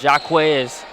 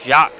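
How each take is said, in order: First: The name is said as two syllables. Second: The name is said as one syllable. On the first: The speaker calls it wrong. "not Jaquez" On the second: The speaker calls it right. "pronounced right, as it's Jacques"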